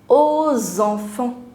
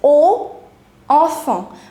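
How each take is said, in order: First: A linking z sound joins the two words. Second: The two words are said separately without linking. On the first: "together it becomes aux enfants" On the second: "separately it is O, enfant"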